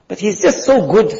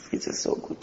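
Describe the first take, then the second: First: Said in the usual way. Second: Breathy whispered echo of the line; whispering the longing aloud. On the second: Acted. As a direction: drop to a secret whisper, dreamy.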